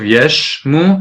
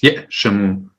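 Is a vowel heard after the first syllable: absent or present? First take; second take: absent; present. First: No vowel is heard after the first syllable. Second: A vowel is heard after the first syllable. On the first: The speaker calls it wrong. "instead of" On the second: The speaker calls it right. "the aleph is pronounced"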